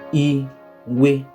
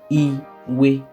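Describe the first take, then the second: No difference in how they are said.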